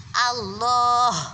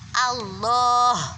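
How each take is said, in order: The two takes are said the same way.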